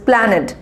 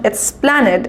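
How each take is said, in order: First: "Planade" with the "Es" nearly silent; right pronunciation. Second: "Esplanade" with a full "Es" at the start; wrong pronunciation. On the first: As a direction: drop the E and say "Planade". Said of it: "it is Planade". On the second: Teacher showing students the wrong version, slow. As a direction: show the mistake "Esplanade" with the E sounded. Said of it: "it is not Esplanade". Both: Shown as a demonstration.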